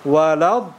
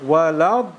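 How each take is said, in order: Both takes have the same delivery.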